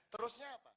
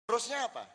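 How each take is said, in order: First: Soft, asking "Terusnya apa?" with a lift at the end; a hushed "Terusnya apa?" probing the listeners; quiet rising question. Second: "Terusnya apa?" pushed out louder, falling at the end; louder falling question. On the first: Preacher quietly asks the crowd, rising question. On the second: Preacher presses the crowd again, louder and falling. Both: Shown as a demonstration.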